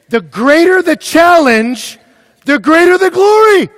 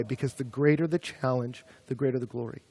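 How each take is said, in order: First: High, drawn-out yell; full-force preaching shout. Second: Said in the usual way. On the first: Real, not acted. Preacher driving home his point to students, shouting. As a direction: thunder the point at full volume.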